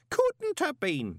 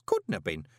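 First: High, slow insistent protest. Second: Said in the usual way. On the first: A narrator's reading. Groat protesting to the golem, high and slow. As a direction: dig in and refuse it. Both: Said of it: "Groat protested".

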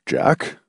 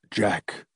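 First: Hesitant questioning of a name; unsure, rising query; uncertain. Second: Very soft, tentative call; small, timid voice; faint. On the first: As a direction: feel him out with a tentative question. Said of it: "Tillingford asked uncertainly". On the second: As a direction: say the name faintly, barely venturing it. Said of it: "he said faintly". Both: A narrator's reading.

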